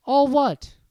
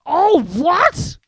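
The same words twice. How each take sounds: First: Higher, louder puzzled question; All what? asked innocently; puzzled Harry. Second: Much louder, much higher roar; All what? thundered in outrage. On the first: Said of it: "asked Harry". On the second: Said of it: "Hagrid thundered". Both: Acted.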